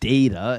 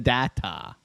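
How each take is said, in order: First: The first syllable sounds like 'day'. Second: The first syllable does not sound like 'day'. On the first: The speaker calls it wrong. "It's not data. It's not like the daytime" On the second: The speaker calls it right. "It's the data"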